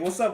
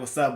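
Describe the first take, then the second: First: It is said in a friendly, casual way. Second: It is said in a tough, gangbanger way.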